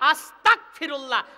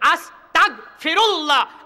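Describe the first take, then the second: First: The second syllable ends in a hard k sound. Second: The second syllable ends in a throaty gh sound. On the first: It asks to become an unbeliever. The speaker calls it wrong. "আর আপনি বলেন কি? ... তয়াকার ক তাগ" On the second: It asks God for forgiveness. The speaker calls it right. "সঠিক উচ্চারণ হবে কি? ... তা গইন জাবর তাগ"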